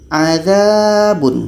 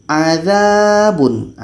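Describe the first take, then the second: Both takes have the same delivery.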